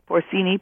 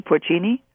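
First: Porcini tried with an S, "por-SEE-nee"; s pronunciation. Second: Porcini with a CH, "por-CHEE-nee"; ch pronunciation. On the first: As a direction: say the c in porcini as a plain s. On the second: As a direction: try the c in porcini as ch. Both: Shown as a demonstration. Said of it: "I never can pronounce Italian".

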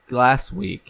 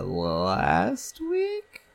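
First: "Last week" as a statement at normal pace; settled confirmation. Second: "last week" drawn out very slowly, rising at the end; unsure question. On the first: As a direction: land "Last week" as the answer. Settles on the answer with yes. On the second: Unsure when the visit was. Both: Real, not acted.

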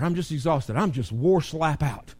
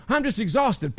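First: Mildly voiced weary complaining; a hint of a worn-out sigh in it; tired complaint. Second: Higher, hammed-up "I'm just exhausted" as a whine; mock tired whine. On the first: Pastor lightly voicing a tired member, plain tired complaint. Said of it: "sometimes we get used to". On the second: Pastor mocking a tired member's excuse, hammed-up whine. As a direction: poke fun at the weary excuse. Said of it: "I'm being silly".

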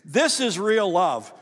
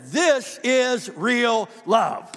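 First: Said in the usual way. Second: "This is real love" very slow, higher and louder, "This" stressed; slow, ringing emphasis on "This is real love"; emphatic repeat. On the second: Shown as a demonstration. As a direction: drag out "This is real love" and lean hard on "This".

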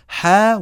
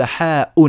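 First: First form of حاء, plain "haa"; حاء with no glottal stop after the vowel; no hamza. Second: حاء pronounced "haa-'un"; حاء in two beats, long "haa" then "'un"; hamza sounded. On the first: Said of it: "يجوز أن نقول حاء". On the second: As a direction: add a firm glottal stop and "un" to حاء. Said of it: "فنهمزها همزا". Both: Shown as a demonstration.

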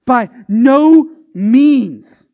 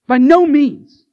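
First: Very slow, loud, stretched no; exclamation point. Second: Louder, higher, punched no; exclamation point. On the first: Preacher showing the exclamation point, slow loud no. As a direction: say it with an exclamation mark. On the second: Preacher repeating the exclamation point, punched no. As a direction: hit it like an exclamation. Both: Shown as a demonstration. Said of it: "felt the need to give Paul an exclamation point".

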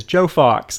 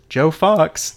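First: Said in the usual way. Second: "Fox" leaned on in mild disbelief; a touch of dawning recognition on "Joe Fox"; stunned repeat. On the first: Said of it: "And Joe says". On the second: Retold or imitated. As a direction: echo the name as it sinks in. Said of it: "And Frank says".

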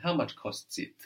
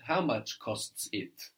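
First: Said in the usual way. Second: How much costs it said slowly, each word apart; teacher's slow literal gloss of How much costs it. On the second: Shown as a demonstration. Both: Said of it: "This is what we say in German".

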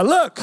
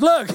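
First: "Look." called out high and loud; calling look. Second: Said in the usual way. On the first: Shown as a demonstration. Preacher voicing the verse's call, bright and loud. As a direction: sing out "Look." like hailing someone. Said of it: "I love it". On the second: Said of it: "It says".

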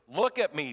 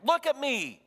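First: Said in the usual way. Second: Much higher and louder, insisting; urgent command. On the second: Acted. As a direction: make him lift his eyes. Jesus urges ashamed Peter.

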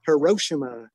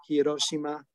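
First: Hiroshima said the American way, huh-RO-shuh-muh; Americanized pronunciation. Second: Hiroshima said the Japanese way, hi-do-shi-ma; Japanese pronunciation. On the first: Giving another mangled example to friends, Americanized Hiroshima. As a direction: stress the RO of Hiroshima, American vowels. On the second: Correcting an Americanized place name, Japanese-style Hiroshima. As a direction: Hiroshima in even syllables with a tapped r. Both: Shown as a demonstration. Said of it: "Instead of Hiro".

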